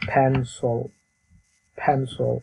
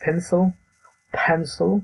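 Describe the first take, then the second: First: "পেন্সিল" as "phen-sl", puffed p, reduced last vowel; teacher's measured "PHEN-sol" for "পেন্সিল"; correct pronunciation. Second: "পেন্সিল" as local "pensil", pitched up; higher-pitched wrong take of "পেন্সিল"; common mispronunciation. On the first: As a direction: model "পেন্সিল" evenly with an aspirated p. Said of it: "কিন্তু এটার উচ্চারণ হলো". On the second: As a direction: show the usual mistaken "পেন্সিল", higher and listing. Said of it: "আমরা করে থাকি". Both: Shown as a demonstration.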